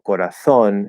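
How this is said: The z is said with a th sound.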